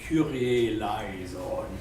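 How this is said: It is pronounced in the German church style. "the Germans say Kyrie eleison"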